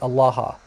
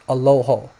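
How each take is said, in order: First: The vowels are open a-sounds throughout. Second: The vowels are rounded o-sounds after the first. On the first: "the word for God is Allah" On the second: "in Western you know that it's pronounced Aloho"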